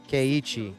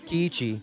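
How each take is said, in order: First: The first syllable sounds like 'kay'. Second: The first syllable sounds like 'kee'.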